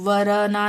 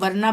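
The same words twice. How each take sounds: First: An extra vowel is heard after the r sound. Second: No vowel is heard after the r sound. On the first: The speaker calls it wrong. "वरना नहीं बोल रहे हैं" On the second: The speaker calls it right. "हम वरना बोल रहे हैं ना"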